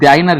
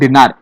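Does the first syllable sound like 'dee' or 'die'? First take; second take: die; dee. First: The first syllable sounds like 'die'. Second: The first syllable sounds like 'dee'. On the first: The speaker calls it wrong. "டைனர் இல்ல" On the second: The speaker calls it right. "டினார் அப்படின்னு சொல்லுவாங்க"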